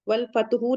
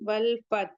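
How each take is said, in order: First: The last word ends with a short vowel. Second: The last word ends on a silent consonant. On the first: The reciter carries on without stopping. The speaker calls it wrong. "नहीं पढ़ेंगे" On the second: The reciter stops at this word. The speaker calls it right. "जब हम यहाँ पे पॉज़ करेंगे, वक़्फ़ करेंगे"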